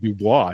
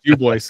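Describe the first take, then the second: First: The name is said with French pronunciation. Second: The name is said with local Wyoming pronunciation. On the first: "it's French. It's actually Dubois" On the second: "we call it Dubois"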